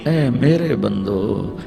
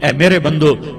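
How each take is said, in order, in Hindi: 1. यह कोमल, प्यार भरे लहजे में कहा गया है। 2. यह सपाट, बिना प्यार भरे लहजे में कहा गया है।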